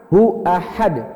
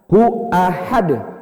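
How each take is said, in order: First: A glottal stop separates hu from ahad. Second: The same.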